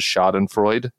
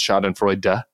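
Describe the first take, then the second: First: The final e is left silent. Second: The final e is pronounced. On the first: The speaker calls it wrong. "mispronounces Schadenfreude" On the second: The speaker calls it right. "We have to pronounce the E"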